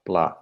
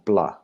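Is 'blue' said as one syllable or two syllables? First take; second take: one syllable; one syllable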